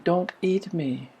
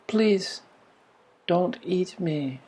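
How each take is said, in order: First: Quiet, slow plea, lightly voiced; a gentle hint of a cow begging once more; pleading cow. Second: Soft, slow, lightly voiced pleading cow; a gentle hint of a cow begging for its life. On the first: Cow repeats its plea to the boy, quiet and slow. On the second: Cow at the barn pleading with the boy, soft and slow. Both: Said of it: "the pleading was in the voice".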